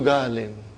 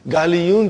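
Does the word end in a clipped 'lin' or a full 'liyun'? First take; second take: clipped lin; full liyun. First: The word drops the ya and ends in -lin. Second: The word keeps the ya sound before the ending. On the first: This is the form actually used in the sentence. "the ya does not come out" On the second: This is the underlying original form. "Galiyun change into Ghalin"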